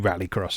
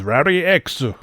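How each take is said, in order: First: The last word is said as the word cross. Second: The last word is said as the letter ex. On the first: This is another possible reading of the name. "it could be Rally Cross as well" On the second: This is the original Japanese reading of the name. "the actual original Japanese pronunciation of Rally X is"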